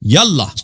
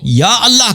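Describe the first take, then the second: First: The two words are run together without a catch. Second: The two words are said apart, with a glottal catch.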